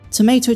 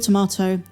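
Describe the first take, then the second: First: It is said with an American pronunciation. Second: It is said with a non-American pronunciation.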